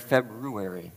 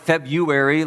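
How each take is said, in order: First: It has an R sound after the B. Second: It has no R sound after the B. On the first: The speaker calls it right. "You got to get that R in there" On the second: The speaker calls it wrong. "not February like January"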